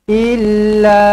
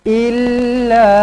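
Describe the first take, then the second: No difference in how they are said.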